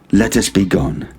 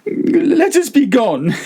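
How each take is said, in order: First: Said in the usual way. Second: High, slow pleading voice; desperate Fortunato. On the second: A narrator's reading. Prisoner begging his captor to go home, high and pleading. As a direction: beg to leave, voice climbing.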